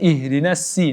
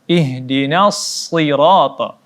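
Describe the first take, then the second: First: The s sound is a plain s. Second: The s sound is a heavy, emphatic s. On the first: The speaker calls it wrong. "kita baca dengan huruf si" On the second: The speaker calls it right. "Huruf shad"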